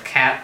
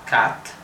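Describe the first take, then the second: First: The vowel is fully front, as in American English. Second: The vowel is central, as in northern England. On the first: "the American pronunciation of cat" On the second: "a central A, like ... the north of England"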